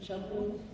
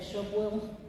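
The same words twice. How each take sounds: First: The syllables are run together into one word. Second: The same.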